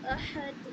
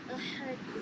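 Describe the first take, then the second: First: احد with the ha pushed from the throat; throaty ha. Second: احد with a plain light ha; teaching demo. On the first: Teacher corrects student, stressing the throat ha in احد. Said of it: "تو ہا کو اچھے سے بولیں گے". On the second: Teacher first reads احد plainly for the student. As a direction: say احد simply, ha barely marked. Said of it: "جیسے نیچے میں لکھی ہوئی احد". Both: Shown as a demonstration.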